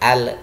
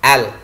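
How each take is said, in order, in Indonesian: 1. L dilepas dengan gema yang memantul. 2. L ditahan dengan halus tanpa memantul.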